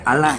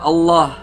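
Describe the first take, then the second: First: The L sound is light and thin. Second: The L sound is heavy and thick. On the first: The speaker calls it wrong. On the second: The speaker calls it right. "Idgham dibaca tebal"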